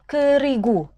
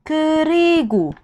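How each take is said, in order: First: Said in the usual way. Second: "kerigu" stretched slowly, syllable by syllable; drawn-out demo. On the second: Shown as a demonstration. Korean teacher showing students "kerigu", drawn out slowly. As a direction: spell out "kerigu" slowly for the learners. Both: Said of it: "Kalau di awal kalimat".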